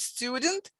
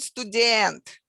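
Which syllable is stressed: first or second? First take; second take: first; second. First: The stress is on the first syllable. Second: The stress is on the second syllable. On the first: This is the English word. "stresses on the first syllable" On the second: This is the Russian word. "stresses on the second syllable"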